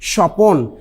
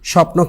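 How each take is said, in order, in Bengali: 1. একটি বাড়তি স্বরধ্বনি ব্যঞ্জনের গুচ্ছটিকে ভাগ করে দেয়। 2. ব্যঞ্জন দুটি কোনো স্বরধ্বনি ছাড়াই একসাথে উচ্চারিত হয়।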